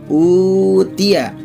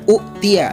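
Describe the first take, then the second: First: The first vowel is held long without a catch. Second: The first vowel is short, cut by a catch. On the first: "supaya bisa dibaca panjang, maka hamzah tadi diganti dengan huruf waw" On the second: "Kalau domah bertemu dengan hamzah sukun tadi, ini kan tidak boleh dibaca panjang"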